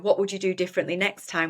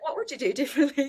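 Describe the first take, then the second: First: It is said in an accusatory tone. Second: It is said in a friendly tone.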